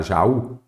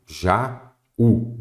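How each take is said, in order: First: Said in the usual way. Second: "Jaú" as two separate beats, Ja, ú; split into syllables. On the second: Shown as a demonstration. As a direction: clear pause between "Ja" and "ú" in "Jaú". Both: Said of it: "Vamos separar Jaú?".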